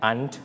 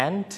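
First: "aunt" pronounced "ahnt"; British-style aunt. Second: "aunt" pronounced like "ant"; short front "a" in "aunt", as in cat; American-style aunt. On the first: Teacher lists two ways, "aunt" said as "ahnt". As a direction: open back "ah" in "aunt", as in father. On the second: Teacher lists two ways, "aunt" said like "ant". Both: Shown as a demonstration. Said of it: "เราสามารถออกเสียงได้สองแบบ".

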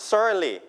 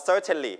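First: "Certainly" said as "cer-nly"; American dropped T. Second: "certainly" as "cer-ten-lee", T sounded; T pronounced. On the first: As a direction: model "Certainly" with no T sound. (ออกเสียง "Certainly" โดยไม่มีเสียง T) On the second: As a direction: model "certainly" with a clear T in the middle. (ออกเสียง "certainly" โดยมีเสียง T ชัด) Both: Shown as a demonstration. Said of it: "อาจจะไม่ออกเสียง T".

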